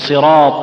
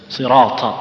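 First: The ط is crisp with no breath released. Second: The ط is released with a puff of breath. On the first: The speaker calls it right. "تقول صراط الذين" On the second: The speaker calls it wrong. "تلاحظون النفس يمشي معه، يخرج النفس"

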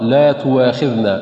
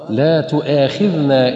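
First: A w sound replaces the glottal stop. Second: A glottal stop is kept before the long a. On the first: The speaker calls it wrong. "إبدال الهمزة واوا ... فيبدل الهمزة واو" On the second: The speaker calls it right. "فلا تبدل الهمزة واو بل تبقى كما هي"

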